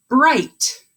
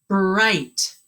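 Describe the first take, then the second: First: "Bright" said louder and higher, leaning on it; emphatic model word. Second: Said in the usual way. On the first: Shown as a demonstration. Teacher presents the new word to her class, emphatic. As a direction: punch "Bright" out loud and firm. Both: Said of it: "Let's stretch that with me".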